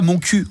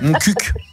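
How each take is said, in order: First: The last word ends in a vowel sound. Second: The last word ends with a clear k sound. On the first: The speaker calls it wrong. "ça se disait pas mon cul en réalité" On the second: The speaker calls it right. "C'est mon cuc"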